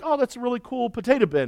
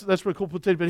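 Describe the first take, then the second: First: Quick, higher excited praise for the bin; admiring. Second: Said in the usual way. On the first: Retold or imitated. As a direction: gush over the grandpa's potato bin. Visitor admiring grandpa's bin.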